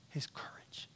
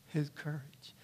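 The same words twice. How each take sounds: First: "His courage" breathed out in a soft whisper; awed whisper of "His courage". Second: Said in the usual way. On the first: Shown as a demonstration. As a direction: hush it, almost no voice. Repeated phrase, first whispered.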